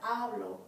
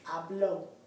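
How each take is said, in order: First: The stress is on the first syllable. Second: The stress is on the last syllable. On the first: I speak. The speaker calls it wrong. "it's not hablo" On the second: He or she spoke. The speaker calls it right. "the accent here over the O"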